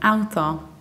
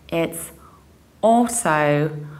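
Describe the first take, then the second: First: The first vowel sounds like ow. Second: The first vowel sounds like aw. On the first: The speaker calls it wrong. "it's not Autodesk because it's not auto" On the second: The speaker calls it right. "you pronounce it like o"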